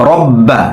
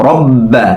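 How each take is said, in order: Both takes have the same delivery.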